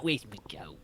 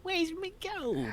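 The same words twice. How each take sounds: First: Whispered leprechaun voice, softer. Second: Very high, slow leprechaun squeal; shrill leprechaun taunt, drawn out; squeaky leprechaun. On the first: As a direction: hiss it like a lurking leprechaun. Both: Retold or imitated. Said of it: "But not".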